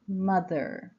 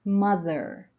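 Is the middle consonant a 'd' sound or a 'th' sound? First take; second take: th sound; th sound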